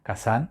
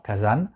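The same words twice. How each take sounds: First: "Kasan" with an unvoiced s sound; Japanese pronunciation. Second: "Kazan" with a voiced z; Japanese pronunciation. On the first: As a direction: say "Kasan" as ka-san, final n sounded. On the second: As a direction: say "Kazan" as ka-zan, final n sounded. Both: Shown as a demonstration. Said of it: "c'est la même prononciation".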